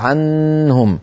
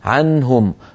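First: The n sound is drawn out long. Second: The n sound is short and clear. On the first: The speaker calls it wrong. "لا يقال عنهم" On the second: The speaker calls it right. "فلا تطول النون"

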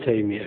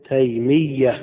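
First: The y sound is single and short. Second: The y sound is doubled and held longer. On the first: The speaker calls it wrong. "ما نقول تيمية كما يقول بعض الناس" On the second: The speaker calls it right. "للتشديد"

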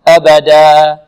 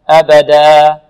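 No difference in how they are said.

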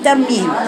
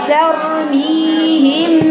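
First: The long vowel after the m is cut short. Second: The long vowel after the m is held longer. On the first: The speaker calls it wrong. "انتوا دايما بتاكلوا المد، بتقولوا ترميهم ترميهم" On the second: The speaker calls it right. "المد الطبيعي ده حاجه كانك بتشديها كده حركتين"

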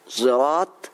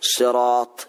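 First: The first sound blends emphatic s with z. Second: The word starts with a pure emphatic s. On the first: "بإشمام الصاد صوت الزاي" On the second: "بالصاد الخالصة"

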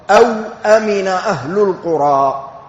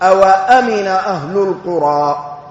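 First: A vowelless w, then a glottal stop before amina. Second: The w carries a, then a glottal stop. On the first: It offers a choice between alternatives. "بإسكان الواو" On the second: It simply joins the two statements. "بفتح الواو"

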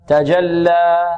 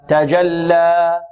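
The two takes are said the same way.

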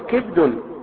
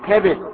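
First: Short i on the first letter, no vowel after. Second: Open a on the first letter, i on the second. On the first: "كسر الكاف وسكون الباء" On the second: "بفتح الكاف وكسر الباء"

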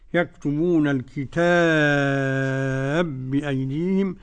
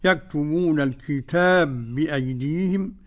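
First: The long vowel in al-kitab is held moderately. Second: The long vowel in al-kitab is held briefly. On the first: "التوسط" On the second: "بالقصر"

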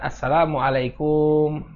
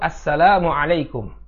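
First: The vowels in la and kum are cut short. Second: The vowels in la and kum are drawn long. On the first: The speaker calls it wrong. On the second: The speaker calls it right. "Salam yang benar itu"

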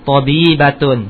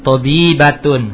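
Both takes have the same delivery.

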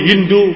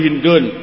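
First: The name ends in a plain vowel, no final n. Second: The name ends in a vowel followed by n. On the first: The name is treated as not taking nunation. The speaker calls it wrong. "boleh kita membacanya malayan sharif" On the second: The name is treated as taking nunation. The speaker calls it right. "boleh juga membacanya munsharif. Tapi yang lebih bagus munsharif"

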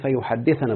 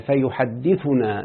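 First: The verb ends with an 'a' vowel before -na. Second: The verb ends with a 'u' vowel before -na. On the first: The verb is in the subjunctive case. The speaker calls it wrong. "لا يجوز أن تقول فيحدثنا بالنص" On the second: The verb is in the indicative case. The speaker calls it right. "فيحدثنا بالرفع"

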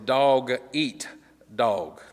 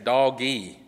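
First: The middle word eat is said clearly. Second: The middle word is merged, sounding like doggy. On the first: The speaker calls it right. "No, it's dog-eat-dog" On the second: The speaker calls it wrong. "A lot of times people pronounce that wrong. They think it's saying doggy"

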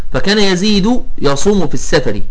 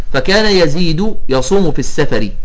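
No difference in how they are said.

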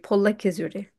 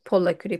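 First: The word has a 'ki' syllable before the ending. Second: The word has no 'ki' syllable before the ending. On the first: The speaker calls it right. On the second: The speaker calls it wrong. "nicht Polaküri"

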